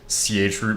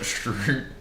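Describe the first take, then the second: First: It begins with a 'ch' sound before root. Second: It begins with an 'sh' sound, one syllable. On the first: This is the official pronunciation. "the actual pronounce pronunciation" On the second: This is what people casually call it. "people would just call it shroot"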